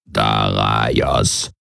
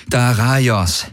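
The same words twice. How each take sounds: First: Much lower, slow croaked call of the name; croaking Kilfer call. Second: Higher pitched, strained call of the name; strained Garland. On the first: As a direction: croak the name out like a toad creature. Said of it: "rief der Kilfer aus". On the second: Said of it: "sagte Garland angestrengt". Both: A narrator's reading.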